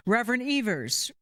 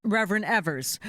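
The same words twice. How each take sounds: First: Evers with first vowel as in "eve"; long-E pronunciation. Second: Evers with first vowel as in "ever"; short-E pronunciation. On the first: Announcer calls up the reverend, Evers said with long EE. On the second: Announcer corrects the reverend's name, Evers said with short EH. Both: Real, not acted. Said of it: "is it Evers or Evers?".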